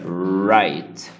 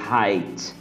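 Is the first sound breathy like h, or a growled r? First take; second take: growled r; breathy h. First: The first sound is a growled English r. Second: The first sound is a breathy h-like sound. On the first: The speaker calls it right. "o correto seria" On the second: The speaker calls it wrong. "o brasileiro acaba falando"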